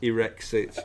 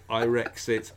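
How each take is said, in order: First: Irexit opening like "irritate", "ih-REX-it". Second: Irexit opening like "Ireland", "eye-REX-it". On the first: Podcaster offering co-host options, Irexit said "ih-REX-it". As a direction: say the first vowel of Irexit as a short "ih". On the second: Podcaster offering co-host options, Irexit said "eye-REX-it". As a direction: say the first vowel of Irexit as "eye". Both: Shown as a demonstration. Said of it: "whatever you like".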